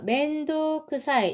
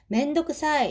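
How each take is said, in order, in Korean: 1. 'o' 소리는 길게 늘여서 발음해요. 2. 'o' 소리는 짧게 발음해요. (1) "여기 우가 하나 더 있습니다" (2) "회화체에서는 요 장음을 좀 빼고"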